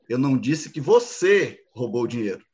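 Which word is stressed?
você. The stress is on "você".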